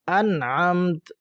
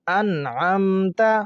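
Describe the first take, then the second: First: The word ends on a bare consonant sound. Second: The word ends with a short final vowel.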